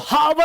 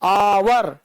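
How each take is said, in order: First: The word starts with an audible h sound. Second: The word starts with a vowel, no h sound. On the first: The speaker calls it wrong. "इसको हावर नहीं बोलते" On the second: The speaker calls it right. "इसको क्या बोलते हैं"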